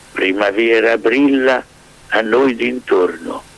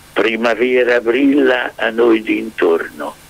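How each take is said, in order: The two takes are said the same way.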